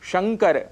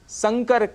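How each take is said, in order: First: The word begins with a 'sh' sound. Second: The word begins with an 's' sound. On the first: The speaker calls it right. "बहुत ही प्रचलित शब्द है शंकर" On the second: The speaker calls it wrong. "जिसके लिए हम संकर कह जाते हैं। इस स के परिवर्तन से अर्थ में बहुत सा परिवर्तन हो जाता है।"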